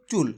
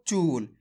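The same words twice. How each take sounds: First: चुल with a short, clipped उ; short vowel. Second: चूल with a long, stretched ऊ; long vowel drawn out. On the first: Teacher contrasting the short उ, said briefly. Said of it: "छोटू की मात्रा होती है तो". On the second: Teacher showing pupils the long ऊ, stretched. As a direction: draw out the ऊ in चूल. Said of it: "खींच के पढ़ा यार". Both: Shown as a demonstration.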